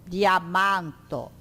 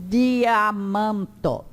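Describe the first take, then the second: The two takes are said the same way.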